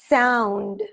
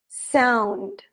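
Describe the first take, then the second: Both takes have the same delivery.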